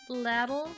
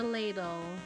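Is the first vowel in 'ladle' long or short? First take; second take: short; long. First: The first vowel is short, as in saddle. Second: The first vowel is a long A sound.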